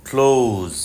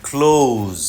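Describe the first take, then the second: Both takes have the same delivery.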